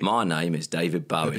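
It is said in a Cockney accent.

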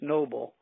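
The name is said with an English pronunciation.

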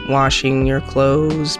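The voice goes high on 'clothes'.

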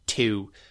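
The vowel sounds harsher and shifted. "they have slightly harsher sounds on certain vowels"

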